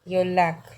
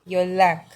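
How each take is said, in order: Both takes have the same delivery.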